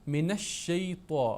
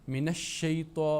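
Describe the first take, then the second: No difference in how they are said.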